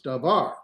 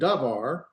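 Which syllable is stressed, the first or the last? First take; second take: last; first. First: The stress is on the last syllable. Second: The stress is on the first syllable. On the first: The speaker calls it right. "we want to put the accent over here in the var" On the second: The speaker calls it wrong. "It's not davar"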